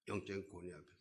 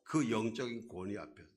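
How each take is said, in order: First: 영적인 권위 앞에서 repeated much softer, like an afterthought; soft echo. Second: Said in the usual way. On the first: Shown as a demonstration. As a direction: let 영적인 권위 앞에서 fall away quietly.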